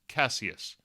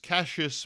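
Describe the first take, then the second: First: The name has a classical, non-Americanized pronunciation. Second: The name has an Americanized, southern-sounding pronunciation. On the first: It refers to the Roman figure. "the Roman version of it as Cassius" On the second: It refers to the boxer. "I pronounce Ali's name as Cassius"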